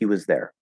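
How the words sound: 'Was' is unstressed with a reduced vowel. "usually not stressed"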